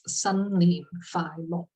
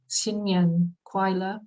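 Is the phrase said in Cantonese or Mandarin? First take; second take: Cantonese; Mandarin. First: The phrase is pronounced with Cantonese sounds. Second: The phrase is pronounced with Mandarin sounds. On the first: "the Cantonese way of saying it" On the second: "to somebody from mainland China who speaks Mandarin"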